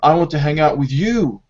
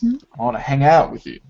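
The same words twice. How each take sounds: First: The stress falls on the word you. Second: The stress falls on the words hang out. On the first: This particular person is wanted, not others. "not Amy or Melanie" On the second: Hanging out is wanted, not another activity. "the focus of the stress is on the action"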